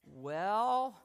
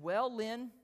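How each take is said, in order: First: A long, weighty "Well" in a light take on the professor; slow, ominous "Well" as he sizes you up; drawn-out Haddon "well". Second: "Well, Lynn" louder and rising, a light hint of the professor; a mild take on the teacher starting his verdict; Haddon's "well". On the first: Retold or imitated. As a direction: stretch the "Well" out, heavy with judgment. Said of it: "and he'd go like". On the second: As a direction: lift the "Well" upward, then name him. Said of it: "And he said".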